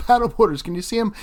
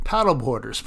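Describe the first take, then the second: First: High, loud disbelieving laugh through the word; exasperated laughing; laughing exasperation. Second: Said in the usual way. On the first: Real, not acted. Annoyed at paddleboarders in frame.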